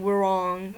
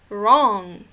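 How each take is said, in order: First: The W at the start is sounded. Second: The W at the start is silent. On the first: The speaker calls it wrong. "You don't say wrong" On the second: The speaker calls it right. "The W is silent"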